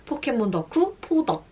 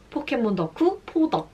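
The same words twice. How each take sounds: The two takes are said the same way.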